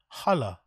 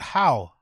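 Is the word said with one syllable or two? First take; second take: two; one. First: The word is said as two syllables. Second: The word is said as one syllable. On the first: The speaker calls it right. "It's pronounced holla" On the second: The speaker calls it wrong. "I thought you pronounce it how"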